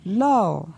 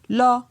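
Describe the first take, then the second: First: The syllable is said on a falling tone. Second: The syllable is said on a mid tone. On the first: "Et pour un ton descendant" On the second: "Pour un ton moyen"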